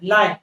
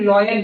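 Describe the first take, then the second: First: The first vowel sounds like 'lie'. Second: The first vowel sounds like 'law'. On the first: The speaker calls it right. "Pronunciation लाइन है।" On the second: The speaker calls it wrong. "इसको हम लोग लॉयन बोलते हैं। ये लॉयन नहीं होता है"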